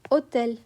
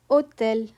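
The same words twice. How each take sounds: No difference in how they are said.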